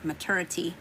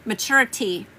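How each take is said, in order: First: Southern-accented MATURITY, middle slurred toward "ter"; Southern "ma-TER-ity", said low; southern accent slip. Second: MATURITY restated with a fuller "TUR" vowel; MATURITY with "TUR" clearly sounded; corrected pronunciation. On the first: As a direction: say MATURITY with a soft Southern slur, quieter. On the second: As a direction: say MATURITY over, firmly, as a correction. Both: Real, not acted. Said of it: "Here come my southern accent".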